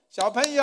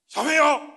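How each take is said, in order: First: The word is spoken quietly and gently. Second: The word is shouted loudly and harshly. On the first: The children are being invited kindly. The speaker calls it right. "他什么话他也没有大声，他只有这样拍拍手" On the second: The children are being ordered like soldiers. The speaker calls it wrong. "用吼的"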